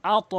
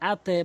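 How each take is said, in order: First: আত echoed as a rounded "ato"; correct qalqalah. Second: আতে with the bounce thinned to "e"; mistaken qalqalah. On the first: Teacher restating the right form, আত with upward bounce. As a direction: release the t of আত into a heavy "o". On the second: Teacher warning learners what not to say, আতে with "e". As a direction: say আতে ending in a wrong "e" echo. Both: Shown as a demonstration. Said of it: "আতে বলা যাবে না".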